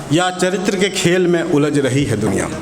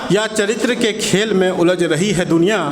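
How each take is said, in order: No difference in how they are said.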